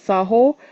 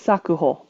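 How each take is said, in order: First: The word is read with two syllables, saho. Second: The word is read with three syllables, sakuho. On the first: It means manners. "Saho is correct" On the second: It means manner of production. "Sakuho apparently means manner of production"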